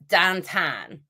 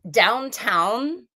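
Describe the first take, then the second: First: It is said in a loose Pittsburgh accent. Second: It is said in a standard, clearly enunciated accent.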